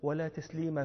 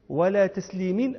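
First: The final word ends with an a vowel. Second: The final word ends with an i vowel. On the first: No greeting is given or returned during prayer. "أي لا غرار في صلاة ولا تسليم في صلاة" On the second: There must be no shortfall in returning a greeting. "أي لا غرار في صلاة ولا غرار في تسليم"

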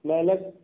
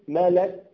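Both takes have the same delivery.

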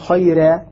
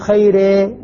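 First: The r is light, its vowel fully open. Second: The vowel after the r leans toward e. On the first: The speaker calls it right. "خيرة أقول خيرة" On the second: The speaker calls it wrong. "أنني أميل أو أقلل الألف أقول خيرة، ما هذا غير وارد مطلقا"

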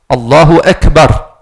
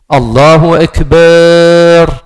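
First: The vowel after the b is kept short. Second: The vowel after the b is drawn out long. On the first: The speaker calls it right. "On écrit Akbar" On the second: The speaker calls it wrong. "C'est faux. Il n'y a pas de med"

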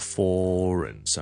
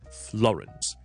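First: The opening consonants are sloppy and slurred. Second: The opening F and L are both clearly pronounced. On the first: The speaker calls it wrong. "有啲人懒嘅时候咧，就未必读得好好" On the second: The speaker calls it right. "留意Florence"

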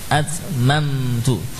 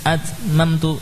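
First: The m is held long before continuing. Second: The m is clipped and said quickly. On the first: The speaker calls it right. "Mamtu diberi zaman dulu" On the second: The speaker calls it wrong. "Jangan dibaca cepat"

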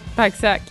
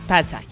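First: It is said as two syllables, 'pack sac'. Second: It is said as three syllables, 'pas de sac'. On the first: The speaker calls it right. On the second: The speaker calls it wrong.

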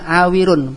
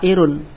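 First: The middle has a clear w sound. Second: The middle has a glide with no w sound. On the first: The speaker calls it right. "isim fa'ilnya awirun" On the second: The speaker calls it wrong. "bukan kita baca airun"

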